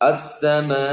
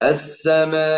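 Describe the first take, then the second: First: The word ends on an open vowel without a stop. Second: The word ends with a clear, raised glottal stop. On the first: The speaker calls it wrong. "ഹംസ ഇല്ലാതെ നേരെ" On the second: The speaker calls it right. "ഒന്ന് ശബ്ദം ഉയർത്തി ഹംസ വ്യക്തമാക്കുന്നു"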